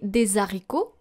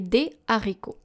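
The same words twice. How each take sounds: First: A z sound links des to haricots. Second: No linking sound joins des to haricots. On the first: The speaker calls it wrong. "We don't say des haricots" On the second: The speaker calls it right. "we do not pronounce the liaison"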